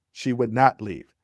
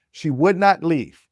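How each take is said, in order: First: Said in the usual way. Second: "She would not leave" slow, louder, higher, leaning on "not"; stress on not. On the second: Acted. Telling the audience she refused to go, stress on "not".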